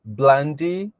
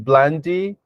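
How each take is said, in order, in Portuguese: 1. O segundo som é um L. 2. O segundo som é um L.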